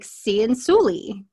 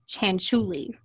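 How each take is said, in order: First: The name is read the way it is spelled. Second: The name is said unlike its spelling. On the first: The speaker calls it wrong. "So I was like" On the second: The speaker calls it right. "But I actually Googled it and they're saying"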